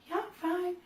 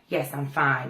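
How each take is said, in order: First: The voice rises at the end, meek. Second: The voice falls at the end, confident.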